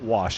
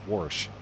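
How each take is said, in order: First: It is said without an r sound. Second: It is said with an added r sound.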